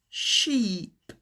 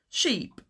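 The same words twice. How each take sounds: First: The long vowel is stretched out and exaggerated. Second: The long vowel has a natural, everyday length. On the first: "I'm exaggerating the sound a little bit" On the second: "In reality, it would sound more like"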